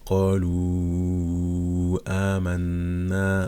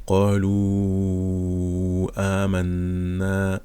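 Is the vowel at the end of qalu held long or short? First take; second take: long; long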